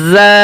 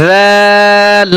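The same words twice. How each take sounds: First: জা with a firm, buzzing 'z'; hard-edged Arabic z in জা; firmer za. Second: জাল with a soft 'dh', stretched long; slow, sustained soft জাল; soft dhal. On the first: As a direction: press slightly on the z of জা. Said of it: "এই হরফটা একটু শক্ত". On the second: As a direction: let জাল begin gently and hold the vowel. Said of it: "জাল হরফ নরম". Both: Shown as a demonstration.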